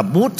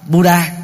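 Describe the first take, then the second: First: "Bút" as one syllable, final a silent; Indian reading of Buddha. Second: "Buddha" in two syllables, "bu-da"; Vietnamese and Western reading. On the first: Teacher showing how Indians read Buddha, "Bút" without final a. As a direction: say "Bút" like "boot", no a. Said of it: "người Ấn Độ đọc là Bút". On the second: Teacher showing Vietnamese and Western reading, "Buddha" as "bu-da". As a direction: sound the final a in "Buddha". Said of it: "đọc theo cách của người Việt Nam và phương Tây". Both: Shown as a demonstration.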